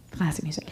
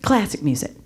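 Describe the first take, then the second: First: Whispered aside. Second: Said in the usual way. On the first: Shown as a demonstration. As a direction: whisper classic music as an aside.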